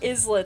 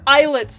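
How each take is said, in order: First: The S in the word is pronounced. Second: The S in the word is silent. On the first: The speaker calls it wrong. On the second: The speaker calls it right. "The S is silent"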